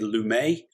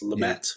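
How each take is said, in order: First: The final T is silent, French style. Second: The final T is clearly pronounced. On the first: The speaker calls it wrong. "we tend to do the French thing and say Lumet" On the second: The speaker calls it right. "it's Lumet"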